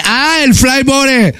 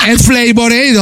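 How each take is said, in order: First: "Flavor Aid" misread as "flai-bo-ré"; higher, slow "Flavor Aid" said as "flai-bo-ré"; mispronounced Flavor Aid. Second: "Flavor Aid" as "flei-bor-eid"; slow, careful English "Flavor Aid", final d sounded; English pronunciation. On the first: Shopkeeper misreads the brand back, "Flavor Aid" as Spanish "flai-bo-ré". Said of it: "Eh, no, es Flavor Aid". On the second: Customer corrects the shopkeeper, "Flavor Aid" as "flei-bor-eid". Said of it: "está en inglés la expresión". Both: Retold or imitated.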